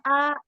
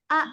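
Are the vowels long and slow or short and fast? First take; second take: long and slow; short and fast. First: Each vowel is drawn out long and slow. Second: Each vowel is clipped short and quick. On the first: The speaker calls it wrong. "itu masih panjang" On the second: The speaker calls it right. "Ini pendek dan cepat"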